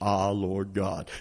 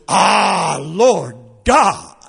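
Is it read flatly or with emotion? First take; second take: flatly; with emotion. First: It is read flatly, without feeling. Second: It is read with awe and enthusiasm.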